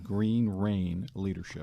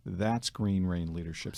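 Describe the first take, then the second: First: Green Rain Leadership said slowly and deliberately, each word weighted; slow, emphatic name. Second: Said in the usual way. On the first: Shown as a demonstration. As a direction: give Green Rain Leadership slowly with a firm falling end. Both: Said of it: "spelled R E I N".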